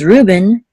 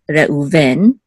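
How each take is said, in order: First: The stress is on the first syllable. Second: The stress is on the last syllable. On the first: This is the English form of the name. "English is Reuben" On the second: This is the Hebrew form of the name. "Hebrew is Reuven"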